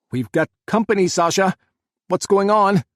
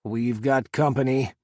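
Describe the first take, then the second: First: Loud, higher urgent yell. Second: Growled. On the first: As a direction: shout over the gunfire. Jack yelling during gunfire. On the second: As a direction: growl the warning under your breath. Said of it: "Scott growled". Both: A narrator's reading.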